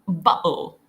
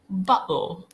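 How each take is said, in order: First: The middle T becomes a glottal stop. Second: The middle T becomes a glottal stop.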